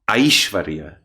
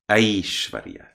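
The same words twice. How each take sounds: First: The first vowel sounds strongly like 'eye'. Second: The first vowel falls between 'eh' and 'eye'. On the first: The speaker calls it wrong. "not so much I" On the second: The speaker calls it right. "exactly in the middle between the northern and the southern way"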